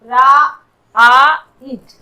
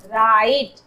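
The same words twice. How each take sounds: First: Loud, separate "raa, aa, it"; sounded out in parts. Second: Said in the usual way. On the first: Shown as a demonstration. Teacher showing the I sound, राइट broken into parts. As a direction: break राइट into रा, आ, इट. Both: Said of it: "आई के रूप में".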